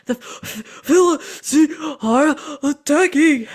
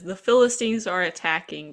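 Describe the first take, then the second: First: Gasping, drawn-out, high and loud; out of breath. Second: Said in the usual way. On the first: Retold or imitated. Winded messenger bringing battle news, gasping loudly. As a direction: pant hard between broken words. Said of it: "he's out of breath, so it's sort of like". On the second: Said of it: "he says ... but he's out of breath".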